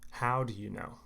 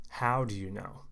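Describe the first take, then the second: No difference in how they are said.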